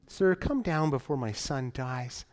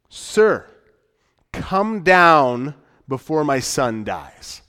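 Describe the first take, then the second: First: It is said nicely, as a polite request. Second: It is said as a forceful, direct command. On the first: The speaker politely asks the listener to act. The speaker calls it wrong. "You could read it nicely" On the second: The speaker demands that the listener act. The speaker calls it right. "This is a direct command"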